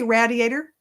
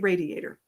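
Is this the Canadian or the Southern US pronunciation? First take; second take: Canadian; Southern US. First: It is pronounced the Canadian way. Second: It is pronounced the Southern US way. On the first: "so you're in Canada, ... you say radiator" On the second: "I'm in Alabama. ... I say radiator"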